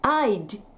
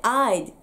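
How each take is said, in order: First: The final d is released with a burst. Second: The final d is stopped without release. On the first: The speaker calls it wrong. "ではなくて" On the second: The speaker calls it right. "I'd 止めます"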